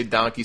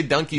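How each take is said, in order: First: DONKEY with an open AH vowel; second pronunciation of donkey. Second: DONKEY with an UH vowel, like "dunkey"; first pronunciation of donkey. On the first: Host comparing ways people say it, DONKEY as "dahnkey". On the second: Host comparing ways people say it, DONKEY as "dunkey". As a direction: say DONKEY to rhyme with monkey. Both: Shown as a demonstration. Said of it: "some people say donkey".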